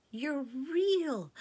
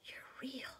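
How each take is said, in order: First: High loud exclamation; girl crying out in joy, higher and louder; joyful cry. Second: Awed whisper. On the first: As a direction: burst out with joy. Susan in joy. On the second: Susan in wonder. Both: A narrator's reading.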